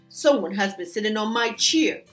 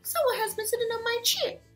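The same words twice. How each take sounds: First: It is grumbled in Papa Bear's voice. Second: It is gasped in Mama Bear's voice.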